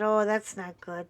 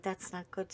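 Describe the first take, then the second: First: Said in the usual way. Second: "That's not good" repeated much softer, trailing away; quiet repeat. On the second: Retold or imitated. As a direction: drop the echo of "That's not good" to a murmur.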